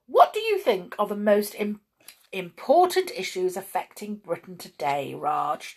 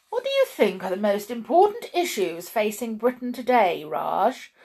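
First: Understated echo of another's question; chiming in. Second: Self-satisfied. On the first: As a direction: parrot the question back in an everyday pitch. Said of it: "chimed in Raj". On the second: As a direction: pose it as a clever, important question. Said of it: "delighted with the cleverosity and intelligentness". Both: A narrator's reading.

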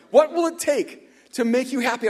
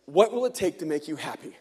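First: Higher, louder echo of the question, savouring it; wondering repeat. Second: Said in the usual way. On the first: Retold or imitated. Neighbour musing on the manager's rare question, in raised wonder. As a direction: marvel at being asked this.

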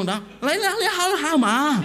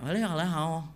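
First: Loud, high-pitched fake Mandarin outburst; mock Mandarin. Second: Mock Mandarin. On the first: Preacher bewildering old driver, loud mock Mandarin. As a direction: belt out nonsense Mandarin, soaring high. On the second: Preacher answering old driver in kind, mock Mandarin. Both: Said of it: "saya jawab pakai Mandarin".

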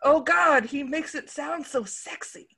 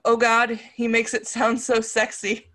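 First: Second try at a swooning line, self-conscious; uncomfortable mock gush. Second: Failed straight face. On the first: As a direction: gush it out high, then shrink away embarrassed. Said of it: "I just feel uncomfortable saying that". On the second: Acted. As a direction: quote read with barely held composure. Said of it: "I can't say it with a straight face".

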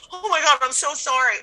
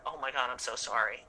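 First: Higher, overdone sympathy; gushing sympathy. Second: Lower, much softer condolence; quiet sincere sympathy. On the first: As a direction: lay the sorry on thick. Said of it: "I've been like". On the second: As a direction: say it gently to a grieving friend. Consoling friend after sister's death. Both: Retold or imitated.

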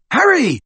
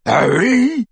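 First: Very high urgent call; shout. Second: High-pitched jeering echo; mocking mimicry. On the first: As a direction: shout through a wall for a friend. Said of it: "shouted Ron again". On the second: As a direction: parrot the caller mockingly. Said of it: "mimicked Crabbe". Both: A narrator's reading.

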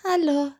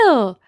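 First: Hesitant, higher-pitched hello; drawn-out uncertain mock greeting; unsure. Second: Bright little friendly hello, retold; retold cheerful hello; friendly greeting. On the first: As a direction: imitate a tentative greeting to a stranger. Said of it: "wie wenn man so unsicher ist". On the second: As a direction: act out a nice, open greeting. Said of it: "Ich habe ganz nett Hallo gesagt".

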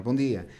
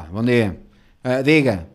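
First: Said in the usual way. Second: Loud, brusque imitation; rude clerk. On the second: Rude clerk answering his greeting, loud and curt. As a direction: bark it like an ill-mannered clerk. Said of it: "Mal educada".

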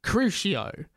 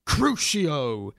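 First: Said in the usual way. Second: Crucio said a touch lower and firmer; a hint of a deep spell-caster's Crucio. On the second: Derek casting the torture curse, in a slightly deeper voice. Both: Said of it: "said Derek in a deep voice".

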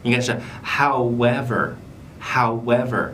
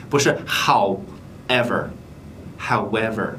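First: "however" with a w glide. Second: "however" without the w; without glide. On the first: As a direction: glide through the w. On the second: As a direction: drop the glide. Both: Shown as a demonstration. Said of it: "半元音是w".

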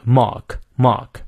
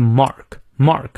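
First: "mark" with a long ah and silent r; British MARK. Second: "mark" with the American r sounded, drawn out slowly. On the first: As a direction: drop the r in "mark", British style. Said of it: "而英式发音就是mark，mark". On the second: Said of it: "美式发音念出来". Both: Shown as a demonstration.

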